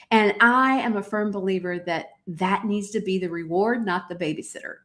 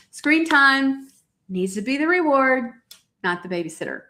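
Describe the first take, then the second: First: Said in the usual way. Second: "Screen time" hit higher and harder, preaching it home; emphatic repeat. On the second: Shown as a demonstration. To her warrior moms, repeating the rule with firm stress. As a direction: drive the point home on "Screen". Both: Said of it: "Oh, hear me, warriors".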